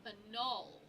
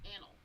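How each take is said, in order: First: Annul as uh-NAWL, stress on the second syllable; trying a pronunciation. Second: Annal as AN-ul, quiet and falling; confirmed pronunciation. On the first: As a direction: say Annul with a weak first vowel and a long stressed ending. Looking up how it is said. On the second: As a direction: say Annal softly with stress on the first syllable. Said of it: "Okay, it is annal". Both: Shown as a demonstration.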